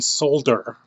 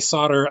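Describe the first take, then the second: First: The L sound is clearly pronounced. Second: The L sound is left out. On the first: This is the European way of saying it. "they pronounce the L" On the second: This is the North American way of saying it. "We don't do it in North America"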